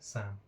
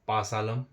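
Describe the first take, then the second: First: The p and l sounds are both silent. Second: The p and l sounds are both pronounced. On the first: The speaker calls it right. "पी भी silent होता है, एल भी silent होता है" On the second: The speaker calls it wrong. "अगर इसको पढ़ेंगे हम एक्चुअल में तो ये होगा पासालम"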